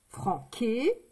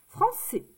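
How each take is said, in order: First: The middle consonant is a hard K sound. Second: The middle consonant is a soft S sound. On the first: The word is written without the cedilla. The speaker calls it wrong. "si je ne mets pas la cédille, ça fait franquet" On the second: The word is written with the cedilla. The speaker calls it right. "C'est français"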